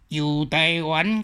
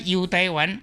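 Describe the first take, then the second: First: It is said with Quanzhou tone sandhi. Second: It is said with Zhangzhou tone sandhi. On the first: "古早差不多泉州音是安" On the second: "尾个漳州腔个时阵"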